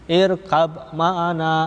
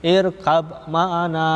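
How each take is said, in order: First: The b is pronounced separately before m. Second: The same.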